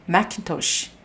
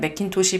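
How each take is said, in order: First: It is said with stress on the second syllable. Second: It is said the Korean way, evenly.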